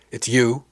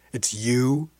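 First: Louder, sudden realization; exclaimed. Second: Drawn-out question, rising at the end; disbelieving repeat. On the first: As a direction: blurt it out in surprise. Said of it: "she finally exclaimed". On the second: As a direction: repeat it slowly as it sinks in. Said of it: "she said again". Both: A narrator's reading.

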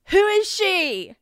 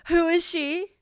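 First: Drawn-out outrage. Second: Outraged question. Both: Real, not acted. Outraged at her drawn character.

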